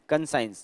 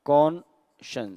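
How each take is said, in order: First: The ending sounds like the word science. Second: The ending is a short shuns sound. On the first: The speaker calls it wrong. "Maximum लोग इसको कौन कंसाइंस बोलते हैं" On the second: The speaker calls it right. "इसको बोला जाता है कॉन्शंस"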